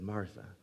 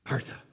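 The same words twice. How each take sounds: First: It is said in a gentle, caring tone. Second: It is said in a harsh, condemning tone.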